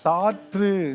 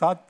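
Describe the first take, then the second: First: The middle sounds like 'tr' in saatru. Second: The middle sounds like a plain 'th' in saathu. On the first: This is the formal written form. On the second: This is the everyday spoken form. "பேச்சு வழக்கில் தான் அது சாத்து ஆயிடுது"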